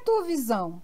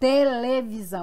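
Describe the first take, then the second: First: It is said with a European Portuguese accent. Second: It is said with a Brazilian Portuguese accent. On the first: The speaker could not recognize the word. "o que é televisão?" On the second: The speaker finally recognized the word. "Era televisão"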